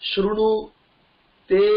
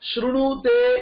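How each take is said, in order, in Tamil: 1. இது இடைவெளியுடன் இரண்டு சொற்களாகப் பிரித்துச் சொல்லப்படுகிறது. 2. இது ஒரே சொல்லாக, இடைவெளி இல்லாமல் சொல்லப்படுகிறது. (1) "எப்படி தெரியுமா பிரிக்கணும்? ... அப்படின்னு சொல்லணும்" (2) "ஸ்லோகம் இருக்கே"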